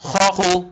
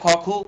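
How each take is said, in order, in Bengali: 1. খ ধ্বনিটি চাপা ও একটু কর্কশ। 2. খ ধ্বনিটি নরম ও হালকা। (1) "আরবিতে বললে" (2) "বাংলায় বললে"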